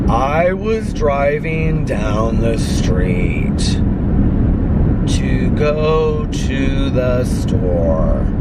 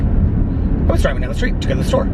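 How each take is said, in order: First: The sentence is spoken at a slow pace. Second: The sentence is spoken at a fast pace. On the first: The speaker calls it wrong. "Normal speed is like" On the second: The speaker calls it right. "if you listen to it like two times speed, it's like"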